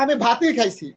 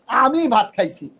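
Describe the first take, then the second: First: ভাতই is the peak word, falling after it; stress on ভাতই. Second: আমি pressed as the key word, falling after it; stress on আমি. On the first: Teacher shows students stress on ভাতই. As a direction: put the weight on ভাতই, not আমি. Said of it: "একটু এরকম meaning দেয় না যে আমি অন্য কিছু খাই নাই". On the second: Teacher shows students stress on আমি. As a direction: lean on আমি, the rest light. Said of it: "এটা একটু এরকম মিনিং দেয় না". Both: Shown as a demonstration.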